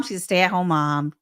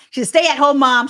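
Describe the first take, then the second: First: Said in the usual way. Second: Louder and higher, emphatic correction. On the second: Real, not acted. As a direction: land the correction with force.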